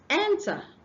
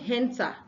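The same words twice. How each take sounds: First: The word begins directly with a vowel sound. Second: The word begins with an added H sound. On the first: The speaker calls it right. "The next one is enter" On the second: The speaker calls it wrong. "you are pronouncing an H before the word"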